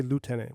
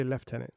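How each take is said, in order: First: "lieutenant" said as LOO-tenant; American pronunciation. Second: "lieutenant" said as LEF-tenant; Canadian pronunciation. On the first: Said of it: "We don't say lieutenant". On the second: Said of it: "we say lieutenant". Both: Shown as a demonstration.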